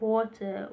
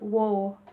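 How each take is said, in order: First: The middle t is fully pronounced. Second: The middle t is a glottal stop, Cockney style.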